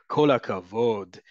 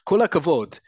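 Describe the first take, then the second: First: It is said in a mocking, sarcastic tone. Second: It is said in a sincere, positive tone. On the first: Mockery, not real praise. "is very sarcastic" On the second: Genuine praise for the person. "is positive"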